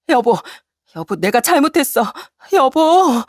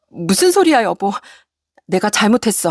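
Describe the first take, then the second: First: High, rising desperate plea; desperate begging wife. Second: Begging wife. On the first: Wife begging as husband walks out, desperate. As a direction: cry out after him, begging. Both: Acted. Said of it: "애원하는 아내를".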